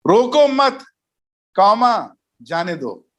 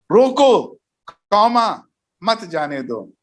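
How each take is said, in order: First: Raised "रोको मत" as one unit, pause, slower "comma जाने दो"; pause after मत. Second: Firm raised रोको, pause, then slower "कॉमा मत जाने दो"; pause after रोको. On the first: Teacher showing how a moved comma flips meaning, pause after मत. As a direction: join रोको to मत, break, then let "कॉमा जाने दो" fall slowly. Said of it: "केवल कॉमा का फर्क है". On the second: Teacher showing readers where the comma falls, pause after रोको. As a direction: punch रोको alone, break, then read out "comma मत जाने दो" slowly. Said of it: "मैं आपको एक सेंटेंस बता रहा हूं".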